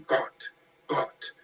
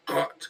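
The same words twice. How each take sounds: First: Gott, Gott whispered, unvoiced; breathy whispered Gott. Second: Said in the usual way. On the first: Shown as a demonstration. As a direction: hiss out Gott, Gott like a secret. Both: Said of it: "they kept putting G O T".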